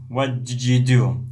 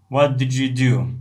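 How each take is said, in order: No difference in how they are said.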